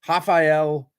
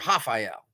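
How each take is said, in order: First: The name begins with an English R sound. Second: The name begins with an H-like sound.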